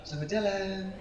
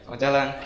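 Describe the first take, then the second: First: It is said in a flirtatious, sweet voice. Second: It is said in a plain, neutral voice.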